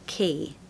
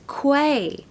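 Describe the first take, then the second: First: It is said exactly like the word 'key'. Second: It is said as 'kway', like it is spelled. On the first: The speaker calls it right. "it's literally the word key" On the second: The speaker calls it wrong. "most people pronounce this as quay"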